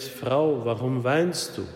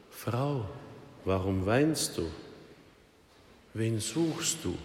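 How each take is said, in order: First: Said in the usual way. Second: Soft, tender, unhurried question; gentle comfort. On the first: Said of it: "wirklich sehr nett". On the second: Acted. Jesus gently asks weeping Mary at the grave, soft and tender. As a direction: hush it down like comforting a grieving woman.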